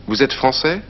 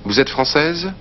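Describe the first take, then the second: First: Français said fran-SAY, final s silent, rising question; masculine français. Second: Française said fran-SEZ, voiced z sounded at the end, rising question; feminine française. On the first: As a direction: end français on an open "ay" sound with no final consonant. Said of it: "if someone asks you if you're French". (français with no z sound at the end) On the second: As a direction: let française finish on a clear buzzing z. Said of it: "Or if you're a woman". (française with an audible final z) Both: Shown as a demonstration.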